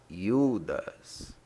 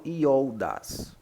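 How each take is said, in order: First: "Iudas" with a long pure U; correct pronunciation. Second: "Ioldas" with an o-u glide, i-OL-das; wrong pronunciation. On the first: Teacher correcting Ioldas to Iudas, long U sound. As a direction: say "Iudas" slowly as YOO-das. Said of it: "Eu não falo Ioldas, mas". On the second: Teacher showing how not to say Iudas, O sounded. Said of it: "Eu não falo Ioldas". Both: Shown as a demonstration.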